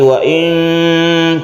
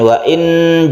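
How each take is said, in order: First: The n is obscured and held nasally. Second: The n is pronounced as a clear n. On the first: The speaker calls it right. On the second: The speaker calls it wrong. "jadi bukan suaranya itu menjadi n"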